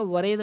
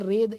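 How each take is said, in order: First: The word begins with a w sound. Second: The word begins with a plain r sound. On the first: The speaker calls it wrong. "वरेद नहीं पढ़ा जाएगा" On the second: The speaker calls it right. "ऐसे रेद इसे पढ़ा जाएगा"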